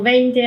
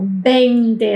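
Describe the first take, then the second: First: The first consonant is soft, like a light v. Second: The first consonant is a strong, exaggerated lip b. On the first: The number is mentioned in passing. "así como parecido a la B corta" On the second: The number is stressed as exactly twenty or as large. "así exageradamente, como con los labios"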